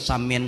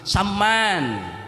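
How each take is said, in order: First: The second vowel sounds like 'ee'. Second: The second vowel sounds like 'a'. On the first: It sounds like the word for a kind of rice. The speaker calls it wrong. "Jangan dimiring-miringkan" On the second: It is the proper name. The speaker calls it right. "bujur-bujur menyambatnya"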